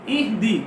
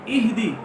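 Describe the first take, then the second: Both takes have the same delivery.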